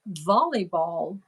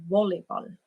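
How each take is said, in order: First: It begins with a V sound. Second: It begins with a W sound. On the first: This is how English speakers say it. "you say volleyball" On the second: This is how German speakers say it. "we pronounce it as volleyball"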